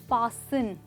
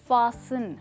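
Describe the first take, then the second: No difference in how they are said.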